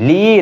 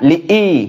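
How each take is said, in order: First: The two vowels are merged into one syllable. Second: The two vowels are pronounced as separate syllables. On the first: The speaker calls it wrong. "লি না" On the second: The speaker calls it right.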